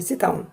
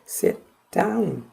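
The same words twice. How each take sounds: First: The stress is on sit. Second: The stress is on down.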